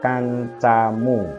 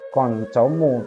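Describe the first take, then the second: First: The vowels are light and open, like plain a. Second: The vowels are heavy, with the tongue pulled back. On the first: The speaker calls it right. "tapi kancamu ... berubah jadi ... miring" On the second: The speaker calls it wrong. "itu bukan koncomu"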